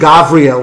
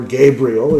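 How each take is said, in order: First: The name is said with a non-English pronunciation. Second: The name is said with an English pronunciation.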